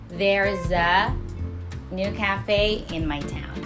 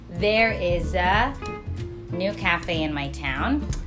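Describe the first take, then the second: First: 'There is' is shortened to one syllable. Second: 'There is' is said as two full words. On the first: "Contracted form" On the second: "the longer one"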